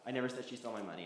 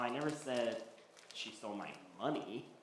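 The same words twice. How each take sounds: First: The stress is on the word never. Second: The stress is on the word money.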